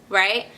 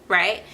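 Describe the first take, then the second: Both takes have the same delivery.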